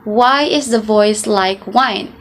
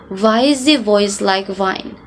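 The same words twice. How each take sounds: First: It is said in a plain English accent. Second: It is said in a German accent, W as V.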